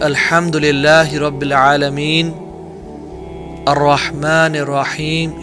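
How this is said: There is a pause after each verse. The speaker calls it right. "He used to take pauses"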